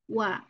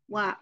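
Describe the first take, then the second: First: The w is said with both lips rounded forward. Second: The w is said without rounding the lips. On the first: The speaker calls it right. "padahal harusnya wa" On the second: The speaker calls it wrong. "kita sering salah mengucapkan waw dengan wa, cukup gitu"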